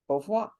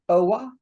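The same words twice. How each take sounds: First: The V sound is clearly pronounced. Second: The V sound is left out. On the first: This is the standard French way. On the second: This is the Cajun French way.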